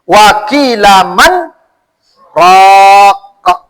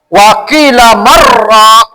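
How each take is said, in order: First: A brief stop comes after 'man'. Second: 'Man' runs straight into the next word. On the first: The speaker calls it right. "Saktah itu diam sekejap" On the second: The speaker calls it wrong. "jangan Ibu sambung"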